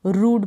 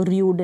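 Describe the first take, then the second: First: रूड with a plain long oo and no y-glide, like "rood"; teacher gives the correct रूड, a pure long oo: "rood"; right pronunciation. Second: र्यूड with a y-glide before the long oo, like "ryood"; teacher shows how र्यूड should not sound, with a y-glide: "ryood"; wrong pronunciation. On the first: Teacher to students, giving the right way: रूड with a plain long oo. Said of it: "रूड पढ़ेंगे". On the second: Teacher to students, showing the wrong way: र्यूड with a y-glide. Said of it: "र्यूड नहीं पढ़ेंगे इसको". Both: Shown as a demonstration.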